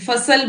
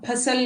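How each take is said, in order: First: The first sound is a soft f. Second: The first sound is an aspirated ph. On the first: The speaker calls it right. "फसल बोलते हैं हम ... नुक्ता हमें बोलना पड़ता है साथ में" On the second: The speaker calls it wrong. "फसल नहीं बोलते"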